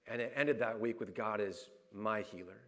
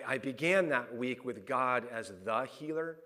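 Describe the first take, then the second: First: "my" set apart and stressed before "healer", voice settling. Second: "the" set apart and stressed before "healer". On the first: Preacher claiming God as his own healer, stress on "my". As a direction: make "my" personal, leaning on it. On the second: Preacher contrasting God as the healer with his own, stress on "the". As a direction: lean on "the", slowly, as a general title. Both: Shown as a demonstration.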